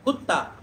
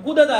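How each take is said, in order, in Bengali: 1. d ধ্বনিটি মিশে গিয়ে দ্বিত্ব t ধ্বনিতে পরিণত হয়। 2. শব্দের মাঝখানে একটি আলাদা d ধ্বনি শোনা যায়। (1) "কুত্তা বলে" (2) "এভাবে বলা যাবে না"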